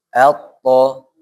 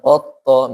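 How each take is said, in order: First: The first vowel is an a sound. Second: The first vowel is an o sound. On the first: The speaker calls it right. "A dulu" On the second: The speaker calls it wrong. "jangan pakai o dulu depannya. Jangan otto"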